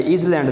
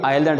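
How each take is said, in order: First: इज़ लैंड as two separate words, "iz land"; wrong pronunciation. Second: आइलैंड as one word, "EYE-lund"; correct pronunciation. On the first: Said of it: "ये इज़ लैंड नहीं है". (गलत तलफ़्फ़ुज़, इज़ लैंड को दो अलग लफ़्ज़ों में) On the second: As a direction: say आइलैंड with a silent s and weak ending. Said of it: "अब ये आइलैंड है". (सही तलफ़्फ़ुज़, आइलैंड एक लफ़्ज़, s ख़ामोश) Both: Shown as a demonstration.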